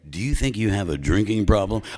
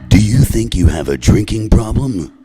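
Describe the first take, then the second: First: It is said in his normal voice. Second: It is said in a deep movie-trailer voice.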